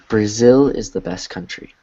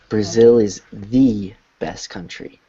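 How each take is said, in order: First: The word 'the' is short and unstressed. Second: The word 'the' is full and emphasized.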